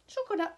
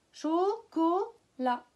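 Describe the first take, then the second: First: Said in the usual way. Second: Chocolat slowly split, both O sounds held; syllable by syllable. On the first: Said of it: "les deux premières syllabes". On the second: Shown as a demonstration. Teacher showing O twice, slow separated syllables. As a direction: break "Chocolat" into three slow beats. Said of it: "On l'entend deux fois dans les deux premières syllabes".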